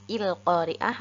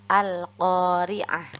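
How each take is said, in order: First: The word begins with an i vowel. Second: The word begins with an a vowel. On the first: The speaker calls it wrong. "Jadi bukan il-qari'ah" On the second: The speaker calls it right. "hamzah wasalnya juga kita baca fathah"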